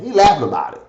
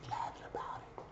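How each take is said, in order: First: Said in the usual way. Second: Very soft, quick whisper. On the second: Real, not acted. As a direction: repeat it under your breath, barely audible. Repeats the line as a whisper.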